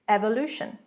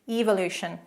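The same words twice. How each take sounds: First: It is said with an American pronunciation. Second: It is said with a British pronunciation.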